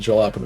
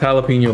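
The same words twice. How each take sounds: First: The word is pronounced in a deliberately odd way. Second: The word is pronounced the standard way. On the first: The speaker calls it wrong. "I pronounce it jalapeno because I want to be funny" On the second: The speaker calls it right. "I know it's pronounced jalapeno"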